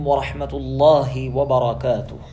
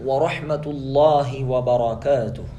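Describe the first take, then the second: The two takes are said the same way.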